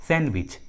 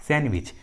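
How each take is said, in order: Both takes have the same delivery.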